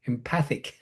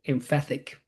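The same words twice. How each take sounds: First: Empathic, said em-PATH-ik, finally right and soft; corrected word. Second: Emphatic, said as em-FAT-ik by mistake; mispronounced word. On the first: Preacher correcting himself, quietly saying empathic. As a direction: land on "empathic" as the fix. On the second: Preacher fumbling a word, saying emphatic quietly. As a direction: stumble into "emphatic" instead of empathic. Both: Real, not acted. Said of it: "I'm having a problem here today with my pronunciation".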